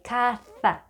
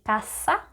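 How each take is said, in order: First: The middle consonant is a th sound. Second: The middle consonant is an s sound. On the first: It is how people in Spain say it. "the way you would pronounce T H in think, like caza" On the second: It is how people in Latin America say it. "people from Latin America, we say casa"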